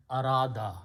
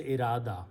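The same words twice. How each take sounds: First: Arada said with an open a at the start, as Arabic has it; Arabic pronunciation. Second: Irada said with a short i at the start, as Urdu says it; Urdu pronunciation. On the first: Teacher giving the Arabic form Arada. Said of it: "it will be pronounced as Arada". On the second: Teacher showing how Urdu speakers say Irada. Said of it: "in Urdu we say Irada". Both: Shown as a demonstration.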